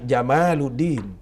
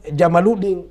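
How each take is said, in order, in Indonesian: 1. Ini memakai artikulasi yang memberi makna 'beauty'. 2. Ini memakai artikulasi yang memberi makna 'camel'. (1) "tapi Jamaluddin" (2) "bukan Jamaluddin"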